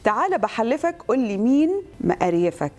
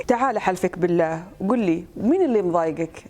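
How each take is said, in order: First: Egyptian dialect plea; lightly performed Egyptian delivery; Egyptian Arabic accent. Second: Gulf Arabic plea; Saudi accent. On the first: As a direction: ask it in Cairene colloquial. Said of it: "باكبر عدد لهجات تقدري". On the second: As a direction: ask it in Saudi dialect. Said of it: "هذه سعودي". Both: Shown as a demonstration.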